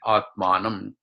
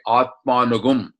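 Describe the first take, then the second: First: The word ends with a short 'am' sound. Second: The word ends with a drawn-out 'agum' sound. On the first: This is the form used in ordinary pronunciation. "in pronunciation is say Atmanam" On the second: This is the form used when reciting the verse. "in reading you say Atmanugum"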